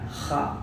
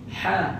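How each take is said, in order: First: A rough, rasping 'kh' sound with friction. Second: A smooth, breathy 'h' sound without friction. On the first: The speaker calls it wrong. "dia jadi kha ... dia apa getarkan kat situ" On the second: The speaker calls it right. "Bila suruh sebut ha"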